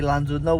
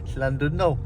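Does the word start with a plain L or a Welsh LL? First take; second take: plain L; Welsh LL. First: The word starts with a plain English L sound. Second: The word starts with a hissing Welsh LL sound. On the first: This is how the English say it. "So we would say Llandudno, wouldn't we?" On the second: This is how the Welsh say it. "And they say Llandudno"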